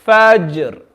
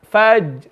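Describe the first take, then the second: First: Fajr with j released and echoed; with qalqala. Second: Fajr with a dead, closed j; no bounce on the j of Fajr; without qalqala. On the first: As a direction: let the j of Fajr bounce. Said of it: "read it with qalqala". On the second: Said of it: "if we read it without". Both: Shown as a demonstration.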